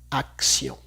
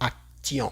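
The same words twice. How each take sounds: First: The t is pronounced as an s sound. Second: The t is pronounced as a t sound. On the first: The speaker calls it right. "la T se escucha como una S" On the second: The speaker calls it wrong. "no vamos a decir acción, no"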